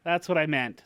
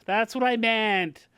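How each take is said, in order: First: Said in the usual way. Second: "That's what I meant" slow and higher; insistent, slowed-down "That's what I meant"; drawn-out emphatic repeat. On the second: Real, not acted. Repeats own line for emphasis.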